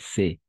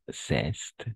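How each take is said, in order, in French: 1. Le mot finit par une voyelle, les consonnes sont muettes. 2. Le mot finit par des consonnes audibles. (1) "On va prononcer C" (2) "et pas ceste"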